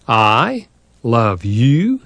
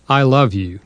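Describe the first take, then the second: First: "I love you" drawn out very slowly, ending on a rising question. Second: A gentle, sincere I love you; said with tenderness. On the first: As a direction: stretch the words and lift "you" like a doubtful question. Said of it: "The questioning voice changes the whole meaning". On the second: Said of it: "when said with kindness and tenderness". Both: Shown as a demonstration.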